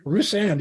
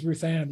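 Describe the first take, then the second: First: Rusan with an S for the TH, stress on RU; accented name. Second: Said in the usual way. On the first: Retold or imitated. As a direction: say Ruthann as Rusan, S not TH. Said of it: "he calls her". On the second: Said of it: "he calls her, "Rusan".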